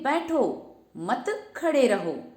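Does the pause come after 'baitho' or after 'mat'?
after baitho. The pause comes after 'baitho'.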